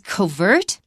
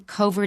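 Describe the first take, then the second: First: The stress is on the second syllable. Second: The stress is on the first syllable. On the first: The word stands alone at the end. "Covert is correct" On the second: A stressed word follows it. "you will often move the stress to the first syllable"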